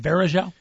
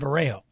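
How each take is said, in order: First: The J in the name is hard. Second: The J in the name is silent. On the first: The speaker calls it right. "I realized his last name is Varejao" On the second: The speaker calls it wrong. "I was calling him Anderson Varejao"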